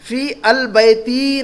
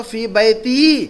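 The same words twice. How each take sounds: First: "फी अल बैती" slow, al set apart; drawn-out wrong example "फी अल बैती", article sounded separately. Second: "फी बैती" slow, with long vowels; drawn-out model of "फी बैती", no L; correct form. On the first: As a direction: say "फी अल बैती" as fii, al, baytii. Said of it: "नहीं कहेंगे". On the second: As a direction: say "फी बैती" as fii baytii, no al. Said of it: "मेरे घर में कहना होगा तो". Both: Shown as a demonstration.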